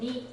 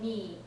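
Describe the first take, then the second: First: The vowel is clipped very short. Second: The vowel is stretched out longer. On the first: This is how the number is normally said. "just saying "neat" really short like they normally would" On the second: The number is made easier to hear. "They extend it a little bit to make it clearer"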